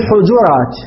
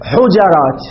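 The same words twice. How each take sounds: First: حجرات said hu-JU-rat, u after h and after j; حجرات pronounced hujurat, first and second letters with u; حجرات with the middle vowel rounded to u; damma on both. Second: حجرات said hu-JA-rat, open a after the j; حجرات pronounced hujarat, jim with fatha; حجرات with the middle letter opened to a. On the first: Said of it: "بضم الأول والثاني". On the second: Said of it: "بفتح الجيم". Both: Shown as a demonstration.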